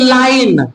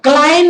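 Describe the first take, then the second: First: The word begins with an L sound. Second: The word begins with a K sound. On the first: The speaker calls it right. "के silent है" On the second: The speaker calls it wrong. "क्लाइन नहीं"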